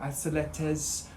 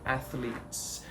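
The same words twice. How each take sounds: First: The middle consonant sounds like an s. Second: The middle consonant is a clear th sound. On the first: The speaker calls it wrong. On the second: The speaker calls it right.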